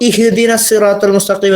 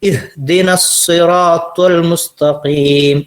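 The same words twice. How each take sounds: First: The first vowel is a long ee sound. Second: The first vowel is a short i sound. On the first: The speaker calls it wrong. "എന്ന് പറയരുത്, ഈ എന്ന് പറയരുത്" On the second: The speaker calls it right. "അങ്ങനെയാണ് അതിന്റെ രൂപം"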